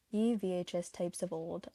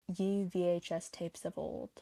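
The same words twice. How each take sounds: The two takes are said the same way.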